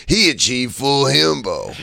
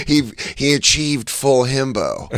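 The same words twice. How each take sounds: First: Slow dopey himbo drawl; lightly voiced dumb hunk. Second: A lightly voiced dopey himbo; slow, airy himbo voice; wrong himbo voice. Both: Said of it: "I mixed up my himbo voices".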